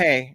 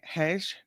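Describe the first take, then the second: First: The word ends on an open vowel glide. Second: The word ends with a soft 'j' sound. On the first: The speaker calls it right. "It's pronounced like" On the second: The speaker calls it wrong. "So what do you say?"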